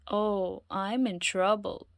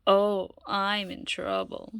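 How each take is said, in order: First: Said in the usual way. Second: Slow, drawn-out worry; slow worried lament. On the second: Acted. Loretta dreading going home, slow and drawn out. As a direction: stretch it out in dread.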